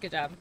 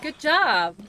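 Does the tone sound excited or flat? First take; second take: flat; excited. First: It is said flatly, without enthusiasm. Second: It is said with excited, lively energy. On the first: The praise sounds dismissive and condescending. The speaker calls it wrong. "Instead, you're just like" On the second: The praise is sincere and enthusiastic. The speaker calls it right. "you should add like a little, like an exclamation point. Like"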